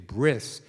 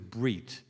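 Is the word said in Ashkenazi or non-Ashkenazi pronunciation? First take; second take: Ashkenazi; non-Ashkenazi. First: The word is said in Ashkenazi pronunciation. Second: The word is said in non-Ashkenazi pronunciation. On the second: "from Hebrew is brit"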